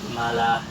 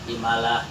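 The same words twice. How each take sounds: The two takes are said the same way.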